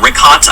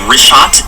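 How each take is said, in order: First: The middle sound is a hard 'k'. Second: The middle sound is 'sh', like 'wrist shot'. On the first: The speaker calls it wrong. "I used to call it Rickhot. I was pr- mispronouncing it" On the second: The speaker calls it right. "I just want to say it's wrist shot"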